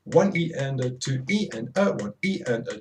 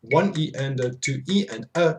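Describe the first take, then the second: First: Steady one-e-and-a chant; corrected count. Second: Chanted one-e-and-a count; rhythmic counting chant; counting the subdivision. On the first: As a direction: recount it in time, evenly. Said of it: "Okay, that's not right". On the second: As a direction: count it out like a drum teacher. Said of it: "So I'm going". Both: Shown as a demonstration.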